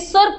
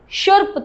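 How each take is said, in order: First: The word begins with a plain s sound. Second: The word begins with an sh sound. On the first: The speaker calls it wrong. "सुर्प नहीं" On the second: The speaker calls it right. "शुर्प था"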